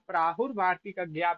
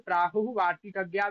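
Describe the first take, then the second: First: Prahu ends with an r sound. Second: Prahu ends without an r sound. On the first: "प्राहुर वार्तिक ज्ञा भी पढ़ सकते हो" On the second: "प्राहु वार्तिक ज्ञा भी पढ़ सकते हो"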